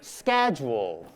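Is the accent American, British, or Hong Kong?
American. It is said in an American accent. "American accent"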